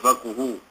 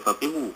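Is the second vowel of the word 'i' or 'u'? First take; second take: u; i. First: The second vowel is a 'u' sound. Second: The second vowel is an 'i' sound. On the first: The speaker calls it right. "kalau sebut faquhu ini lebih tepat" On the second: The speaker calls it wrong. "boleh dibaca juga sebagai faqihu"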